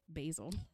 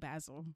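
First: The word is said with an American pronunciation. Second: The word is said with a British pronunciation. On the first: "the Americans say basil" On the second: "the UK girlies say basil"

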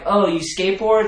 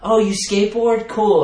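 First: It sounds suspicious and disapproving. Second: It sounds impressed and approving.

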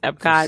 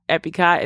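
First: No extra vowel is added in the middle. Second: An extra vowel is added in the middle. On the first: The speaker calls it right. "it's Epcot" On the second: The speaker calls it wrong. "it's not Epicot"

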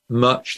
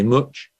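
First: It is said in a southern, London-style accent. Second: It is said in a Leicester accent. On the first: "Instead of saying much" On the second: "they say much"

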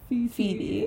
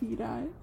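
First: The word ends with an 'ee' sound. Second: The word ends with an 'eye' sound. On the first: "it would be pronounced like E" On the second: "it would be I"

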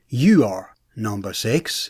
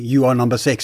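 First: There is a pause after "you are". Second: There is no pause after "you are". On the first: "if it was written with a comma after you are, comma" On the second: "Instead of saying"

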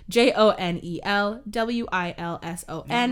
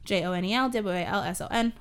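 First: The letters are spelled out slowly. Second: The letters are spelled out fast.

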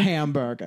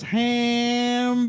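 First: The word is said quickly and plainly. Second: The word is drawn out slowly.

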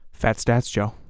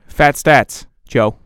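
First: It is said in a plain, low-energy way. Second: It is said with exaggerated, put-on vigor.

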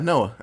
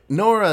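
First: The name ends in a plain vowel without r. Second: The name ends with an r sound. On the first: The speaker calls it right. "I said it right" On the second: The speaker calls it wrong. "Nora is the bad way"

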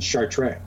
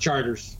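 First: The name is pronounced the French way. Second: The name is pronounced the English way. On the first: The speaker calls it wrong. "the first time I pronounced it, I said Chartres" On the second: The speaker calls it right. "And the guy says Charters"

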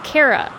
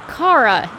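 First: The first vowel sounds like the vowel in 'care'. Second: The first vowel sounds like the vowel in 'car'. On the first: This is the name as earlier shows said it. "instead of Kara" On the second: This is the name as the actress says it. "she called her Kara"

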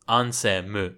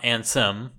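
First: The name ends with an extra 'mu' syllable. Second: The name ends on a closed 'm' sound. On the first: This is the Japanese way of saying the name. "the way he mouths the line is Ansemu" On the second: This is the English way of saying the name. "It's not Ansem, where the mouth would close"

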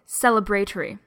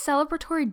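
First: The word has a British pronunciation. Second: The word has a non-British pronunciation.

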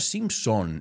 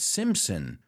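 First: The last syllable sounds like 'son'. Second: The last syllable sounds like 'sin'. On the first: The speaker calls it wrong. "no Simpson" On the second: The speaker calls it right. "it's Simpson. Sin es como pecado al final"

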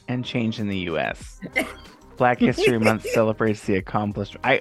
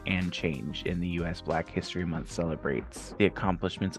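First: There is a pause after "U.S." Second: There is no pause after "U.S." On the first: A new sentence starts after U.S. The speaker calls it right. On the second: The speaker calls it wrong.

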